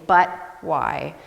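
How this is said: The stress is on "but".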